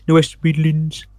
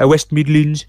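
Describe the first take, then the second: First: A rough, self-mocking attempt at a West Midlands accent. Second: Said in the usual way. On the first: Shown as a demonstration. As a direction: try the West Midlands accent, not quite landing it. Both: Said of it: "that's a horrible attempt".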